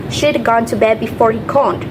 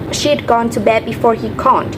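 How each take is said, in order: First: The words she had are contracted to she'd. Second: The words she had are contracted to she'd.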